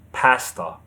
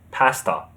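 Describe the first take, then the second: Both takes have the same delivery.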